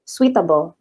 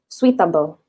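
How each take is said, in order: First: The first part is said as soo-wee. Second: The same.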